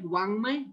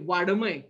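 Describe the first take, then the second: First: The middle consonant is a nasal sound. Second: The middle consonant is a hard d sound. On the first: The speaker calls it right. "वाङ्मय बरोबर आहे" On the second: The speaker calls it wrong. "काही लोक कसे म्हणतात माहित आहे वाडमय"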